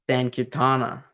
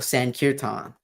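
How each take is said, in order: First: The word ends with an extra final vowel. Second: The word ends on a consonant, no final vowel. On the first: "it has an A on the end of it" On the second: "I don't say it with the A"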